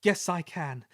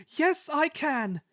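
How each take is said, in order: First: A touch of brave determination. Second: Much higher, slow, triumphant resolve; brave. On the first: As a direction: start to find courage. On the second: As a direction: shout your courage up the hill. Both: Acted. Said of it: "he puffed bravely".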